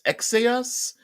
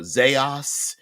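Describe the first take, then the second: First: The word begins with a ks sound. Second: The word begins with a z sound. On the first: "it could be pronounced uh, X uh, X Aos" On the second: "sometimes it's known as uh, Zaos"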